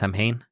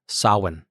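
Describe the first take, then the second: First: It follows the band's popular pronunciation. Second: It follows the older traditional pronunciation. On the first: The speaker calls it wrong. "is not pronounced Samhain" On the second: The speaker calls it right. "is actually pronounced Samhain"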